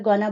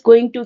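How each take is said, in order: First: The words are merged into one short word. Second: Both words are said fully and separately. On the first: "गोना बोलना" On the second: "गोइंग टू की जगह"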